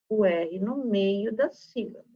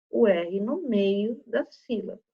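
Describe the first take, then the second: Both takes have the same delivery.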